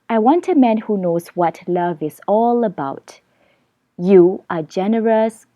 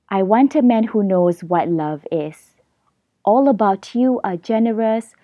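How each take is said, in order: First: The pause comes after "about". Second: The pause comes after "is".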